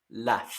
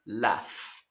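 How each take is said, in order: First: "laugh" with the GH as F. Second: "laugh" with GH as F; silent U. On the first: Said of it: "la G H suena como una F". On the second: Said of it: "si se dan cuenta". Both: Shown as a demonstration.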